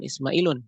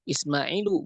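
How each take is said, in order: First: The word ends in a u followed by n. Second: The word ends in a plain u vowel. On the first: The speaker calls it wrong. "bukan Ismailun" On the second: The speaker calls it right. "Ismailu bukan Ismailun"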